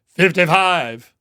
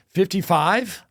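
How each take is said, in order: First: It sounds firm and authoritative. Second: It sounds hesitant, like a question.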